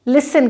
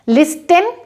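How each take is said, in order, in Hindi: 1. t की आवाज़ silent रहती है। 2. t की आवाज़ साफ़ बोली जाती है। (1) "टी सॉफ्ट हो जाएगा और इसको हम लिसन कहेंगे" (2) "लिस्टन नहीं होगा"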